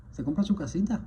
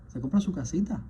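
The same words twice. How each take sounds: The two takes are said the same way.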